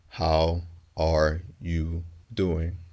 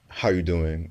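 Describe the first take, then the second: First: Each word is said clearly and separately. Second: The words are reduced and run quickly together. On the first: "broken up into very distinct pieces, very distinct words" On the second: "sounds fast, blurry, unclear"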